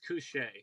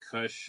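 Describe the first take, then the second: First: The final vowel sound is pronounced. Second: The final vowel sound is left off. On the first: The speaker calls it right. "it's Couche" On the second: The speaker calls it wrong. "everyone calls me like Kush"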